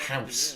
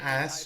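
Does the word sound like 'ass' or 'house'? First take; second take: house; ass. First: It sounds like 'house', with an h sound. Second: It sounds like 'ass', with no h sound. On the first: "I'm saying house" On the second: "When I say ass, I'm saying house"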